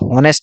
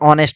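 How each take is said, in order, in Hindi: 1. इस शब्द की शुरुआत में स्पष्ट h ध्वनि है। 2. यह शब्द स्वर से शुरू होता है, इसमें h ध्वनि नहीं है। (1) "बट हॉनेस्ट नहीं होता" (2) "ऑनेस्ट होता है"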